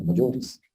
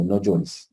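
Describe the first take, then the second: First: "No llores" breathed soft and tender; loving. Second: A firm, steady no llores. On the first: Jesus tenderly comforting the grieving widow, hushed. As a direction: comfort her gently with "No llores". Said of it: "de una manera que fue amorosa". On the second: Jesus telling the widow firmly to stop crying. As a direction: say "No llores" with calm firmness, not harsh. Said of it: "con firmeza". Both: Retold or imitated.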